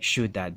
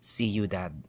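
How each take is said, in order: First: The word is shushed into two syllables. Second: The word is said in three syllables. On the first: The speaker calls it wrong. "they'll say ciudad in, for two syllables" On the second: The speaker calls it right. "but it's actually ciudad"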